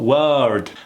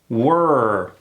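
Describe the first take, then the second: First: A separate vowel sound is heard before the R. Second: The W goes straight into the er sound. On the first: The speaker calls it wrong. "I'm just producing the sound for that vowel" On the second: The speaker calls it right. "The W sound into that er sound, like this"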